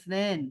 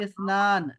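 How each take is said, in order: First: The word ends with an 'ain' sound. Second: The word ends with a long 'aan' sound. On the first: This is how Arabs say it. "लेकिन अरब लोग जो हैं स्नैन बोलते हैं" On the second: This is the form of the word. "मैंने कहा स्नान है लफ्ज"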